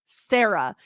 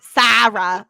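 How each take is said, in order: First: "Sarah" as SAIR-uh; plain American "Sarah" with an AIR vowel; own American pronunciation. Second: "Sarah" with a flattened A, SA-ruh as in cat; louder, mimicked accent on "Sarah", short A; imitating her accent. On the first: Shown as a demonstration. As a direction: say "Sarah" the American way, rhyming with Clara as CLAIR-uh. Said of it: "because I say her name". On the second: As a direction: exaggerate the foreign vowel in "Sarah". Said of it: "saying it with her accent".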